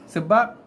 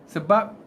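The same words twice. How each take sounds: No difference in how they are said.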